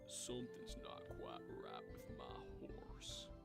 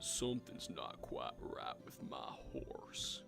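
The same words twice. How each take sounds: First: The line is said quietly. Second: The line is said loudly.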